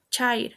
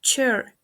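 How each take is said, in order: First: "chair" as CHAH-eer; "chair" read as spelt, a plus i; mispronounced. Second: "chair" as chehr; "chair" in one syllable with eh; correct pronunciation. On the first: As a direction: say "chair" with an eye vowel. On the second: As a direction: say "chair" with eh vowel. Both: Shown as a demonstration. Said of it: "The correct pronunciation is".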